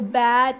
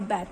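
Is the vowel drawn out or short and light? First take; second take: drawn out; short. First: The vowel is stressed and drawn out. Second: The vowel is short and said lightly. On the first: The speaker calls it wrong. "बैट नहीं बोलेंगे" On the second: The speaker calls it right. "बैट बोलेंगे"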